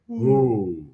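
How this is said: A deep, low Papa Owl hoot.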